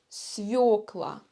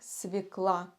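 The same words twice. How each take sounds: First: The stress is on the first syllable. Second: The stress is on the last syllable. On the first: It is the standard form. The speaker calls it right. "Но правильно свекла. ... ударение падает на букву Ё" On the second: It is a casual, colloquial form. The speaker calls it wrong. "носители языка совершают ошибку и произносят это слово как свекла. Это разговорный вариант"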